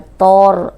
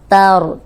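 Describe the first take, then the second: First: The first consonant is heavy and thickened. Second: The first consonant is light, not thickened. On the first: The speaker calls it wrong. "ऐसे नहीं" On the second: The speaker calls it right. "ता को मोटा नहीं करना"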